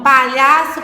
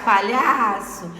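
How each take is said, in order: First: "palhaço" loud, stressed on LHA; stress on middle syllable. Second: "palhaço" slower, with LHA drawn out; lengthened middle stress. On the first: Teacher repeating to find the tonic syllable, "palhaço" stressed on LHA. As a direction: punch out "palhaço" with weight on lha. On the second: Teacher showing the strong syllable, "palhaço" with a long LHA. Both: Shown as a demonstration. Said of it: "olhar é a penúltima sílaba".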